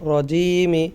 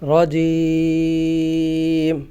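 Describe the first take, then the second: First: It ends in a short final vowel. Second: The final vowel is dropped; long vowel stretched. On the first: The reading continues into the next word. "মিলিয়ে পড়ার ক্ষেত্রে এভাবেই পড়ব" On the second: The reading stops at this word. "সাকিন করতেছি"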